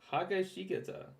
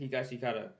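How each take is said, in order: First: The name begins with the syllable 'ha'. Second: The name begins with the syllable 'hi'. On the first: The speaker calls it wrong. "That doesn't even sound right" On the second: The speaker calls it right. "that's how I say it"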